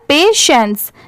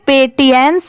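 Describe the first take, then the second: First: The middle is said with a sh sound. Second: The middle is said with a t sound. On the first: The speaker calls it right. "इसकी pronunciation है यहाँ पर पेशेंस" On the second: The speaker calls it wrong. "इसे पेटियंस नहीं पढ़ेंगे क्योंकि बहुत सारे लोग इसे ऐसे भी प्रोनाउंस करते हैं"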